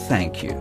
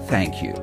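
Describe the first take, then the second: The two takes are said the same way.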